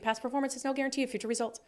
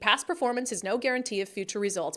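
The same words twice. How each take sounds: First: It is read very quickly, like commercial fine print. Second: It is read at an ordinary, relaxed pace.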